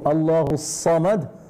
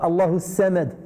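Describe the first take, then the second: First: Samad begins with a heavy, emphatic S sound. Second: Samad begins with a light, plain S sound. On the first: The speaker calls it right. "Lorsqu'on dit" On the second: The speaker calls it wrong. "c'est pas"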